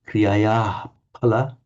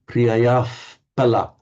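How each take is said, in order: First: There is no F-like sound before pala. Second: A slight F-like sound comes before pala. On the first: This is the classical Sanskrit pronunciation. "Kriyaya in classical Sanskrit would be pronounced" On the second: This is how a Brahmin chanting Vedic says it. "almost a slightly F sound to it"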